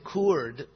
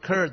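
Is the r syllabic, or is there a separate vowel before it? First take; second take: separate vowel; syllabic. First: A separate vowel is sounded before the r. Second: The r itself serves as the vowel. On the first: The speaker calls it wrong. "We don't say curd" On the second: The speaker calls it right. "the vowel is actually the R"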